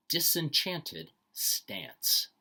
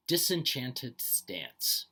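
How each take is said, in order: First: Slow emphatic repeat. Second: Slow careful reading. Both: Shown as a demonstration. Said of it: "told to read each phrase twice".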